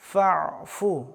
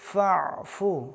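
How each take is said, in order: Both takes have the same delivery.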